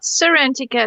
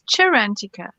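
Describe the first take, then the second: First: The word begins with an s sound. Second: The word begins with a ch sound. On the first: The speaker calls it wrong. "so it's not Serentica, I've been saying it wrong all along" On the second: The speaker calls it right. "it's Cherantica"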